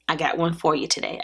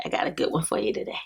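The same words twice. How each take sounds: First: Said in the usual way. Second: Fast, breathy half-whispered tease; a quick secret aside to viewers. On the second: Real, not acted. Teasing a big haul.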